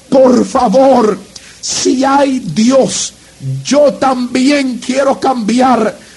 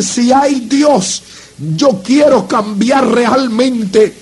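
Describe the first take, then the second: First: Slow, drawn-out plea, each word stretched; slow pleading prayer. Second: Slow, stretched plea, no rush; slow pleading prayer. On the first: A young man at the altar pleads with God, slow and drawn out. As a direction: beg God slowly, words dragged out. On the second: Kneeling before the preacher, he begs God in a slow, drawn-out voice. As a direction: drag out each word as a heartfelt plea. Telling God he wants to change. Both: Retold or imitated.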